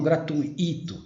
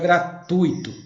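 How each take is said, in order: First: The stress falls on the syllable 'i'. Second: The stress falls on the syllable 'tui'. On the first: The speaker calls it wrong. "e não gratuito" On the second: The speaker calls it right. "O curso é gratuito"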